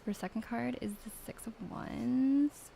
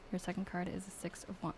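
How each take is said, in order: First: Lightly put-on Valley Girl accent, sing-song rise. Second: Said in the usual way. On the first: Mean Valley Girl accent reading the second card. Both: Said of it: "I need to do Valley Girl accent".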